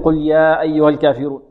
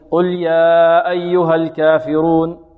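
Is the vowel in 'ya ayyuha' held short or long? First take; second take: short; long. First: The long vowel in ya is held two counts. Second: The long vowel in ya is held four counts. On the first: The speaker calls it right. "إذا قرأت بحركتين في المنفصل فتقرأ يا أيها ماذا؟ بحركتين" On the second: The speaker calls it wrong. "وهذا ربما يكون خطأ شائع"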